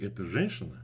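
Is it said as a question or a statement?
question. It is said with a questioning tune. Asking whether this is a woman. "I could ask you"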